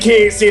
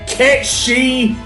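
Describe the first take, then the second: First: The second word ends with a 'th' sound. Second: The second word sounds like 'shee'. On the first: "I will pronounce it Kate Sith" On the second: "not Kate She"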